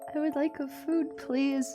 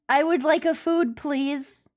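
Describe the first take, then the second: First: It is said quietly. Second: It is said loudly.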